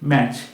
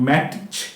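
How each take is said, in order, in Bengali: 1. ch-এর আগে কোনো t-এর উচ্চারণ করা হয় না। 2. ch-এর আগে t-এর উচ্চারণ করা হয়। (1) "টিটার কোনো উচ্চারণ হচ্ছে না" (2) "ম্যাটচ উচ্চারণ হবে না"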